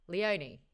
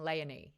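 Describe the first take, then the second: First: "Leonie" as lee-OH-nee; preferred pronunciation. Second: "Leonie" as LAY-uh-nee; narrator's pronunciation. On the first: Shown as a demonstration. Host corrects the audiobook, "Leonie" as lee-OH-nee. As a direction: say "Leonie" starting with Lee, then a full OH. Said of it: "you know what I'm trying to say". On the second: Retold or imitated. Host quotes the narrator she disagrees with, "Leonie" as LAY-uh-nee. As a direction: say "Leonie" starting with LAY, weak middle vowel. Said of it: "But she's saying Leonie".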